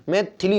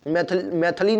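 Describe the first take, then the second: First: मैथिली with a short i after th; correct form. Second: मैथिली with a short a after th; wrong form. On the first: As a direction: say मैथिली as "mai-thi-lee". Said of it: "होता है". (सही मैथिली, "थि" में छोटी इ) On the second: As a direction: say मैथिली as "mai-tha-lee". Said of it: "नहीं होता". (मैथिली को गलत "मैथली" बोलें) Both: Shown as a demonstration.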